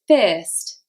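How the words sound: It is said with an ear-like vowel. "In Liverpool, this would be said fist"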